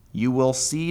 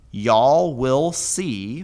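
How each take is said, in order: First: Said in the usual way. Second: "y'all will see" read very slowly, each word drawn out and a bit louder; slow translation read. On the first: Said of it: "from Ra'ah". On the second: Shown as a demonstration. Teacher glossing the Hebrew for students, slow and deliberate. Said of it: "now the Vav consecutive perfect introduces the main clause".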